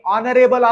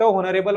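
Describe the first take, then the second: First: The word begins with a vowel sound. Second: The word begins with an h sound. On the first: The speaker calls it right. "ऑनरेबल असतं ते" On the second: The speaker calls it wrong. "फक्त होनरेबल वाचायचं नाही"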